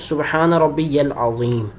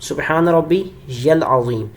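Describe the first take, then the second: The two takes are said the same way.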